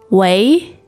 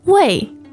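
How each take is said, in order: First: The pitch rises from mid to high. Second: The pitch falls sharply from high.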